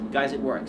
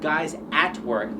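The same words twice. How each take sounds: First: The phrase is said fast, the words run together. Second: The phrase is said slowly, each word separate. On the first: "When you're speaking fast" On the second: "They don't say guys at work"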